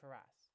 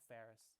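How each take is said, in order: First: The name sounds like Faraz, ending in a z. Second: The name sounds like the English name Ferris. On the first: This is the name's actual pronunciation. The speaker calls it right. "it's actually pronounced Faraz" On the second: This is how others on the show said it. The speaker calls it wrong. "They called him Ferris"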